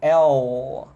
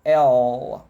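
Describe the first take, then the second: Both takes have the same delivery.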